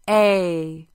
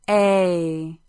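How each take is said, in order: First: It is said with full voice. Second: It is said with full voice.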